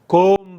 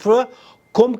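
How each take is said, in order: First: The vowel is stretched into a long o sound. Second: The vowel is a short u sound. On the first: The speaker calls it wrong. "काफ के बाद वाव, और वाव क्या बल्कि दो तीन वाव लगा देते हैं" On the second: The speaker calls it right. "काफ के ऊपर पेश है, वाव नहीं है। सिर्फ कुम कहा करें"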